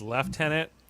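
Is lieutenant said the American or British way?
British. It is said the British way, lef-tenant.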